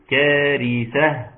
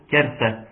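First: "كارثة" slowly, with a true th as in "think"; proper tha. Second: "كارثة" with an s in place of ث; tha turned seen. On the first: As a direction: draw out "كارثة" with the tongue-tip ث. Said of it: "انما المفروض ايه؟". (نطق "كارثة" ببطء بثاء فصيحة) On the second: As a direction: say "كارثة" colloquially, with س for the ث. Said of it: "شلت حرف الثاء وحطيت حرف السين". (نطق "كارثة" بالسين بدل الثاء) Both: Shown as a demonstration.

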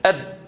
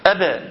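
First: أب clipped dead with no bounce on ب; b without echo. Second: أبا with a bouncing ب release; echoing b. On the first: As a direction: swallow the ب of أب with no release. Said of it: "ولو جيت أشيل القلقلة، اسمع كده". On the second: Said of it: "لو سمحت قلقله". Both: Shown as a demonstration.

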